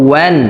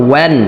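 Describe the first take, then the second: The two takes are said the same way.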